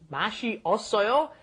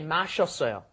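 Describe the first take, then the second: First: The verb is said in full, syllables separate. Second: The verb is said contracted, syllables merged. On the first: "you add ot" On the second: "Mash together, when it becomes uh, natural form"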